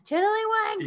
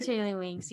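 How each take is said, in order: First: "Tiddlywinks" called out high and sharp; yelled at the kids. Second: Said in the usual way. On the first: Retold or imitated. Parents yelling the kids' safe word at them, "Tiddlywinks" thrown up high. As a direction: call "Tiddlywinks" out as a mock yell. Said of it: "sometimes we yell at them". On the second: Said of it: "they give a little hug".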